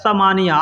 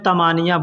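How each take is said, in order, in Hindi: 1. यह 's' की आवाज़ से शुरू होता है। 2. यह 't' की आवाज़ से शुरू होता है। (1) "लेकिन असल में वो लिखा हुआ क्या होता है?" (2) "बोलचाल की ज़ुबान में तमानिया बोलते हैं"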